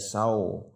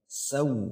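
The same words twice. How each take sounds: First: The vowel is said with unrounded lips. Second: The vowel is said with rounded lips. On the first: The speaker calls it wrong. "jangan dibaca saw" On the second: The speaker calls it right. "saw monyong"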